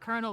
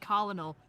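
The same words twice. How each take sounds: First: It sounds like 'kernel'. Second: It is said as spelled, 'col-o-nel'. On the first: The speaker calls it right. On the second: The speaker calls it wrong.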